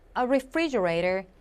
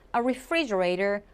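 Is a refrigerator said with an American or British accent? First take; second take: American; American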